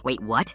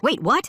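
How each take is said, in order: First: Said in the usual way. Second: High-pitched, startled yell; yelled disbelief. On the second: A narrator's reading. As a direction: yell it in shocked protest. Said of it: "The woman yelled".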